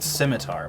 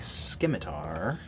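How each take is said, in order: First: The c is said as a soft S sound. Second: The c is said as a hard K sound. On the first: The speaker calls it right. "It's pronounced scimitar" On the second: The speaker calls it wrong. "I decided to make the C hard for comedic effect"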